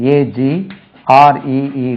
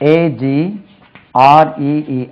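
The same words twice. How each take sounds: The two takes are said the same way.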